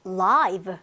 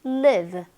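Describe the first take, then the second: First: "live" with an eye vowel, rhyming with five; long i in live. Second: "live" with a short i, rhyming with give. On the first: Teacher shows students the adjective, "live" with long i. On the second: Teacher shows students the verb, "live" with short i. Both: Shown as a demonstration. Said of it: "발음 자체가 달라지는 경우".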